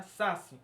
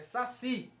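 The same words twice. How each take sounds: First: "saci" with the weight on SA and a weak CI; stress on SA. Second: "saci" with the weight on its last syllable, CI; stress on final CI. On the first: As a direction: wrongly stress the start of "saci". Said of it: "não é saci". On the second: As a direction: land firmly on the CI of "saci". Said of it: "é saci". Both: Shown as a demonstration.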